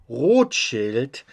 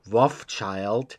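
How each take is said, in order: First: The name is said with German pronunciation. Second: The name is said with American pronunciation. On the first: "which is how you pronounce his name" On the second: "you Americans usually pronounce it"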